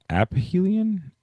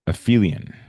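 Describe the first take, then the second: First: "aphelion" tried as AP-uh-HEE-lee-un, slow and high; unsure mispronunciation. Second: "aphelion" said as uh-FEE-lee-un, with an f; corrected pronunciation. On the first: Real, not acted. Teacher stumbling on a new vocab term, unsure mispronunciation. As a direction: sound out "aphelion" with a split p-h, app-helion, pitched up doubtfully. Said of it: "let me see how to pronounce that". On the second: Shown as a demonstration. Teacher after checking the pronunciation, corrected and sure. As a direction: pronounce "aphelion" firmly, stress on FEE, falling at the end.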